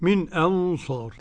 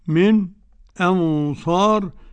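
First: A full glottal stop starts the second word. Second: A brief silent pause comes before the vowel. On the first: "والتحقيق" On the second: "والسكت"

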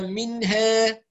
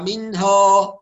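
First: The long a leans toward an e sound. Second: The long a is exaggerated and sounds heavy. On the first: "يبالغ في الترقيق يؤدي هذا إلى التقليل" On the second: "بعض الناس تبالغ في الفتح فكأن الحرف يفخم"

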